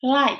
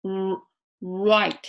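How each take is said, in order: First: "light" begun crisply with tongue behind upper teeth; English L. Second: "right" after an isolated puckered "r-"; English R. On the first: Teacher contrasting light with right, clear L. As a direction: start "light" on a clear L, lips unrounded. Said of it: "明かりの方は". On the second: Teacher contrasting right with light, rounded R. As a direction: round the lips into "r-", then say "right". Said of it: "こっちは". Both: Shown as a demonstration.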